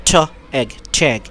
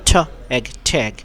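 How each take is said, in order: The two takes are said the same way.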